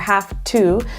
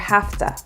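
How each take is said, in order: First: Both words are said in full. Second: The words are run together as 'hafta'. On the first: "instead of saying need to or have to" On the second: "or have to"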